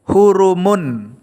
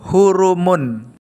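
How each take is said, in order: The two takes are said the same way.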